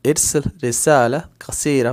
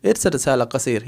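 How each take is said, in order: First: कसीरा with its final long 'aa' sounded; full careful form. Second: Quicker, run together, कसीर without final 'aa'; simple flowing form. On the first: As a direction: say each word fully, ending on कसीरा. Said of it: "वैसे है तो, लेकिन". (कसीरा का आख़िरी 'आ' पूरा बोलते हुए) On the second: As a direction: let the words flow into कसीर, ending on 'r'. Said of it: "flow में बोल सकते हैं". (फ्लो में, कसीर के आख़िर में 'आ' छोड़कर) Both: Shown as a demonstration.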